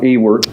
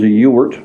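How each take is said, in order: First: The name begins with a different vowel sound. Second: The name begins with a 'you' sound. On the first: The speaker calls it wrong. "not Ewert" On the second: The speaker calls it right. "The name is Ewert"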